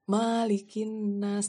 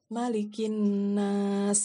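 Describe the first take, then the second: First: The first vowel 'ma' is drawn out long. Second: The first vowel 'ma' is kept short. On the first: The speaker calls it wrong. "bukan malikin nas" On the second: The speaker calls it right. "Padahal sebenarnya bacaannya malikin nas gitu"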